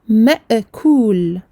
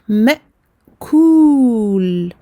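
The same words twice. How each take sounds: First: The glottal stop is released with a bounce. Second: The glottal stop is cut off cleanly. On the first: The speaker calls it wrong. "j'aurais créé une qalqalah qui n'est pas euh, correcte" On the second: The speaker calls it right. "Hamza soukoun, je coupe le son"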